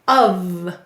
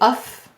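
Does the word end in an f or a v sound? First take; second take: v; f. First: The word ends in a voiced v sound. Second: The word ends in an unvoiced f sound. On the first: The speaker calls it right. "But what do we really say? Of" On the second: The speaker calls it wrong. "It looks like off, or if we were making the vowel lazy, uff"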